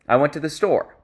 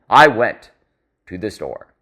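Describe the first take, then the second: First: It flows smoothly with no pauses inside. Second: It breaks up with awkward pauses between words. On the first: The speaker calls it right. "So we should say" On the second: The speaker calls it wrong. "That sounds way more normal than"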